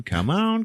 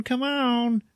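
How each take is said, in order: First: High, wheedling come on; mock witch begging high; witch pleading. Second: Very high put-on squeaky come on; mock witch squealing in a much higher voice; witch pleading. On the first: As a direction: coax him, pitch rising. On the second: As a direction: push it even higher, begging. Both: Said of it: "the fat one, just goes".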